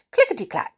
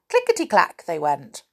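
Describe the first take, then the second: First: High, crisp clickety-clack; clicking needles. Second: Said in the usual way. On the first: A narrator's reading. Narrator imitating the knitting needles, high and crisp. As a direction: tap it out like needles.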